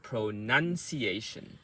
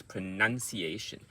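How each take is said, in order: First: Pronunciation slowed, NUN held and stressed; slow practice take. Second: Pronunciation run together at normal speed; quick take. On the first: Coach contrasting practice with quick speech, pronunciation slow. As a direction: say pronunciation slowly, part by part. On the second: Coach showing the word said quickly, pronunciation run together. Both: Shown as a demonstration. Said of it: "So when you say quickly".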